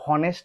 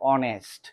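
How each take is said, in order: First: The word begins with an h sound. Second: The word begins with a vowel sound. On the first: The speaker calls it wrong. "এটা কিন্তু হনেস্ট হবে না" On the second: The speaker calls it right. "প্রথম লেটারটা কি রয়েছে? সাইলেন্ট রয়েছে"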